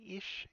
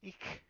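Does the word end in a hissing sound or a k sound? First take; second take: hissing; k sound. First: The word ends in a soft hissing sound. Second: The word ends in a hard k sound. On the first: "I hissed and I didn't spit" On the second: "instead of ik"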